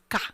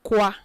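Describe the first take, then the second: First: The syllable starts with a plain k sound. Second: The syllable starts with a kw sound. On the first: The speaker calls it right. "it's ka" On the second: The speaker calls it wrong. "it is not qua"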